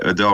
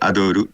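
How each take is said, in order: First: The name is said with an English pronunciation. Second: The name is said with a Japanese pronunciation. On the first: "Adore en anglais" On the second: "Adoru en japonais"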